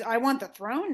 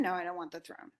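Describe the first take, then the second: First: Questioning, lifted on THRONE; incredulous echo. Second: Softer, settling into a falling statement; dismissive denial. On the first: Creon repeats the accusation back to Oedipus, incredulous. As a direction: throw the charge back as a disbelieving question. Creon echoes the charge, then denies it. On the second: Creon denies wanting the throne, low-key dismissal. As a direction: answer your own question, dropping the pitch. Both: Retold or imitated.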